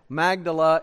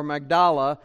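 First: Magdala stressed on the first syllable. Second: Magdala stressed on the middle syllable; alternative pronunciation. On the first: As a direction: say Magdala as MAG-duh-luh. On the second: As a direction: say Magdala as mag-DAH-luh. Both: Shown as a demonstration. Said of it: "depending on how you pronounce it".

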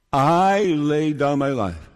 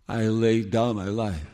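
First: "I" leaned on, the rest of "I laid down my life" plain; stress on I. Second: Said in the usual way. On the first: Shown as a demonstration. Preacher repeats the verse, stressing "I". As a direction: put the weight on "I" at the start. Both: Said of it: "Listen to how, how often the word "I".

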